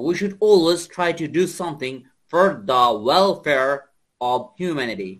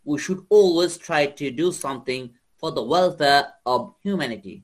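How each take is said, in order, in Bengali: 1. এটি আমেরিকান উচ্চারণে বলা হয়েছে। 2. এটি ব্রিটিশ উচ্চারণে বলা হয়েছে। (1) "আর আমেরিকানরা বলবে" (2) "ব্রিটিশটা বলবে এইভাবে"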